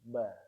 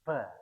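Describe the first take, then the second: First: The b is said with the breath held back. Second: The b is released with a puff of breath. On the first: The speaker calls it right. "tapi ditahan" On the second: The speaker calls it wrong. "bukan bacanya bukan ba"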